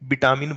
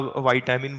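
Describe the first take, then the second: First: The first vowel is short, as in 'bit'. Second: The first vowel glides, as in 'bite'. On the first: This is the Bihari way the speaker used to say it. "विटामिन बोलते थे" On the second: This is the way the speaker says it today. "आज वाइटामिन बोलते हैं"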